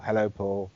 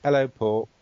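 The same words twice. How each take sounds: First: An even, neutral "Hello, Paul" with no warmth. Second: Said in the usual way. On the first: Shown as a demonstration. Therapist demonstrating a neutral self-greeting, neutral tone. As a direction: say "Hello, Paul" flatly, without feeling. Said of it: "in the neutral way". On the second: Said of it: "So we say".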